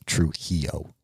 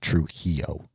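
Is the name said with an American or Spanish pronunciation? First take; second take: Spanish; Spanish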